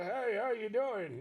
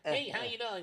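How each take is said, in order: First: It is said in Pops' old man voice. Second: It is said in a regular, pressed man's voice.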